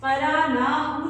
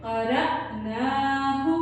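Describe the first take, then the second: First: क़रअनाहु with no catch on the hamza; smooth hamza, wrong. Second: क़रअनाहु with a sharp catch on the hamza; jerked hamza. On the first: Teacher shows how not to read क़रअनाहु. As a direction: slur the hamza of क़रअनाहु, the mistake. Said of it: "क़रअनाहु नहीं करना". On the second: Teacher shows the qalqala hamza. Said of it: "झटका दे के पढ़ते हैं". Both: Shown as a demonstration.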